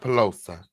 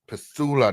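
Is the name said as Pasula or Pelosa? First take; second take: Pelosa; Pasula. First: The name is said as Pelosa. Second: The name is said as Pasula. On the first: The speaker calls it wrong. "You keep saying Pelosa" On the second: The speaker calls it right. "Pasula, not Pelosa"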